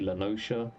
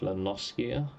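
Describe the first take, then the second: First: The middle consonant is a soft SH sound. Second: The middle consonant is a hard K sound. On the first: "I've heard others say Lenosha" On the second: "I'm going to be saying it with a hard C"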